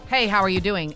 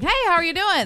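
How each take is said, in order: First: It is said in an angry tone. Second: It is said in a friendly tone.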